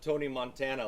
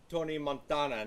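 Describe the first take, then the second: First: Montana is said like the football player's name. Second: Montana is not said like the football player's name. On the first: The speaker calls it wrong. "not Tony Montana like Joe Montana" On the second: The speaker calls it right. "it's Tony Montana"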